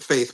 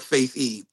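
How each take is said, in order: First: The name is said as one syllable. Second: The name is said as two syllables. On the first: This is the official pronunciation. "They pronounce it Faith" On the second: This is a personal nickname, like e-faith. "So I call it Faithy"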